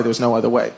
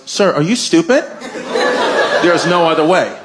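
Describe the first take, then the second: First: Low, soft mock principal; composed refusal. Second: Mildly exasperated mock principal; upset principal. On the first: Principal to dad over expelled son, composed refusal. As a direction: refuse quietly in a lowered voice. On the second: Principal to persistent dad, mildly upset. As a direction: let the patience slip a little. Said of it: "the principal just gets upset".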